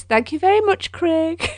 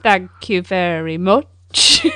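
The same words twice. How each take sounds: First: High, mock-gracious thank you; sarcastic thanks. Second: Slow, low, deadpan thank you; sarcastic thanks. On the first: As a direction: thank him with a teasing smirk. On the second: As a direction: drag out a dry, sarcastic thanks. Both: Real, not acted.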